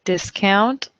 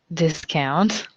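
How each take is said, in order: First: Discount stressed DIS-count; first-syllable stress on discount; noun stress. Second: Discount stressed dis-COUNT; second-syllable stress on discount; verb stress. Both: Shown as a demonstration. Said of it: "homographs list".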